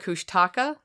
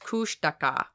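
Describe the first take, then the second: First: The name is said the anglicized local way. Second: The name is said the native way. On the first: This is how people in the southern area say it. The speaker calls it wrong. "we call it the Kushtaka, and that's actually pronounced wrong" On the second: This is how the native people say it. The speaker calls it right. "It's Kushtaka"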